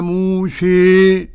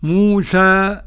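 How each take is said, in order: First: The final vowel leans strongly toward 'ee'. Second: The final vowel is an open 'a' sound. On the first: "الإمالة" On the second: "أل الفتح"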